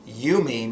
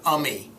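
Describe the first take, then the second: First: The word begins with a long 'you' sound. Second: The word begins with a short 'uh' sound. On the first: The speaker calls it right. "a long vowel sound" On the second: The speaker calls it wrong.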